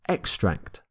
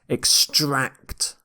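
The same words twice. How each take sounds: First: The stress is on the first syllable. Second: The stress is on the second syllable.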